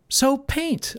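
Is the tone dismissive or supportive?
supportive. It sounds warm and encouraging.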